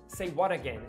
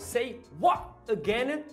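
First: The t in 'what' is a quick flap. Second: The t in 'what' is a glottal stop. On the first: "Mas na primeira com flap" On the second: "E na segunda com a parada glotal"

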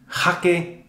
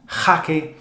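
No difference in how they are said.

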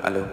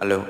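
No difference in how they are said.

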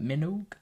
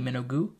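First: The ending rhymes with vogue. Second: The ending does not rhyme with vogue. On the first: The speaker calls it right. "as like Vogue, but Minogue" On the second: The speaker calls it wrong. "I was saying it as Kylie Minogue"

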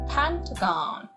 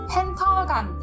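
First: It is said with English-style sounds and stress. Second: It is said with flat Korean-style syllables. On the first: The speaker calls it right. "간, 간 이렇게 읽어주시는 거예요" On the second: The speaker calls it wrong. "한국어처럼 읽지 마시고"

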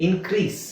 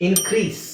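The two takes are said the same way.

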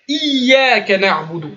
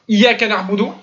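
First: The y sound is doubled and held long. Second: The y sound is short and single. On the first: The speaker calls it right. "je fais exprès de l'exagérer" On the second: The speaker calls it wrong. "L'oubli, on entend plutôt Iyaka na'budu"

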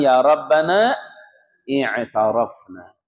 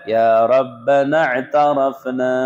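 First: A glottal stop is pronounced before i'tarafna. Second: The glottal stop is dropped, linking the words. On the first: The words are read one at a time. "kalau lagi di satu-satukan" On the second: The words are read together as connected speech. "kalau baca"

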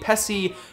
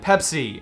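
First: The name is pronounced the Argentine Spanish way. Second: The name is pronounced the standard way. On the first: The speaker calls it wrong. "easier phonetically for Spanish speakers to say Pepsi" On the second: The speaker calls it right. "rather than Pepsi"

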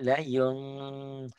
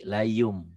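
First: It ends in a held nasal hum. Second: It ends in a plain closed m sound.

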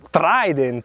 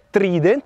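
First: The first i sounds like 'eye'. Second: The first i sounds like 'ee'. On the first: The speaker calls it right. "ma Trident. Perché quindi c'è una sola consonante dopo la I" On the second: The speaker calls it wrong. "la Trident non è Trident"

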